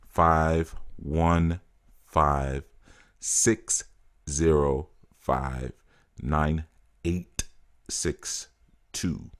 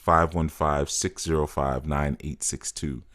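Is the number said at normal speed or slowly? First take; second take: slowly; normal speed. First: The number is said more slowly. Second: The number is said at normal speed.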